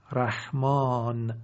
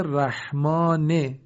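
First: رحمان slow, long "aa", closing on bare n; pausal sukun. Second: رحمانه drawn out, ending in short "i/e": "rahmane"; final kasra sounded. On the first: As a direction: stop رحمان without a final vowel. (رحمان کشیده با نون ساکن) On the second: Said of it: "آخرش کسره آمده". (رحمانه با کسرهٔ نون، «رَحمانِ») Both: Shown as a demonstration.

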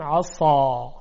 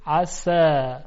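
First: عصا with tongue pulled back, thick ص; dark heavy ص in عصا; emphatic s. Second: عسا said with light س; plain thin sin in عسا; light unemphatic عسا. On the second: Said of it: "ببینید عسا". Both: Shown as a demonstration.

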